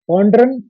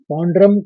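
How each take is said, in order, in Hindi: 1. शब्द n की ध्वनि से खत्म होता है। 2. शब्द m की ध्वनि से खत्म होता है। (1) "यहाँ पर उच्चारण में ड्रन आया है" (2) "संस्कृत में बोलेंगे तो पौंड्रम"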